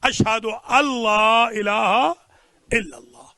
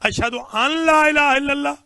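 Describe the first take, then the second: First: The n merges into the l sound. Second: A clear n sound comes before 'la'. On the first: The speaker calls it right. "नून बिल्कुल साकिन है, लिखी जाएगी पढ़ी नहीं जाएगी" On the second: The speaker calls it wrong. "ये गलत है"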